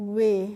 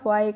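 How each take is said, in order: First: The vowel sounds like 'ay' in 'hay'. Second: The vowel sounds like 'eye'. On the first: The speaker calls it right. "कैसे करेंगे बच्चों?" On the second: The speaker calls it wrong. "साय या वाय करके pronunciation को नहीं करना है"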